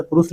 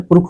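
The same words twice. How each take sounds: First: पुरुष ending in a plain dental s. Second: पुरुष said as purukh, ending in kh; kha for sha. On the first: Teacher showing learners the Nagpuri spelling, dental s in पुरुष. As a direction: say पुरुष with स, not ष. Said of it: "दंत सा का ही प्रयोग". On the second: Teacher showing the Nagpuri variant, kh replacing sh in पुरुष. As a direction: put a kh sound at the end of पुरुष. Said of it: "ख का भी प्रयोग हो जाता है". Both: Shown as a demonstration.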